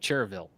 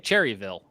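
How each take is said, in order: First: The name is said with two syllables. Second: The name is said with three syllables. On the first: The speaker calls it right. "I say Cherville" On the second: The speaker calls it wrong. "at least I don't say Cherryville"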